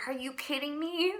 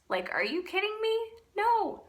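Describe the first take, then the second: First: High, disbelieving protest; incredulous. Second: Much higher, louder, fast and disbelieving; exasperated outburst. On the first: Arguing back at God, high incredulous protest. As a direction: toss it up in stunned disbelief. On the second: Refusing God's call, a high exasperated outcry. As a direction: fling it out in full exasperation. Retelling arguing with God. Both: Retold or imitated.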